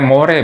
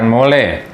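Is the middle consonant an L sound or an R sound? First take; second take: R; L. First: The middle consonant is an R sound. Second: The middle consonant is an L sound. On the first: The speaker calls it right. "konsonan ini akan dibaca R" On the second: The speaker calls it wrong.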